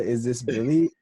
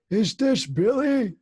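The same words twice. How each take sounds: First: Said in the usual way. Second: Put-on high, slow old man asking; hammed-up confused grandpa. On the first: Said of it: "when you ask the". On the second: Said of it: "I bust out laughing ... one of my favorite things that you do".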